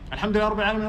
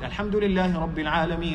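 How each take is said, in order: First: The letters are rushed and blurred together. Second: It is fast, with every letter articulated clearly. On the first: The reader wants to please the people behind. The speaker calls it wrong. "They read like this" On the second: The listeners can understand the recitation. The speaker calls it right. "It's fast, but with the tajweed"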